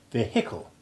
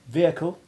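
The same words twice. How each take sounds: First: The H in the middle is clearly pronounced. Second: The H in the middle is not pronounced. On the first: This is how some Americans say it. "I have American friends who sound the H and say vehicle" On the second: This is how it is said here. "here the H finds its voice only in the adjective vehicular"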